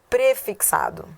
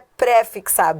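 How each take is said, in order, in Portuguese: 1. O prefixo é pronunciado átono. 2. O prefixo é pronunciado tônico. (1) "Se é átono" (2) "que muita gente erra também, não é"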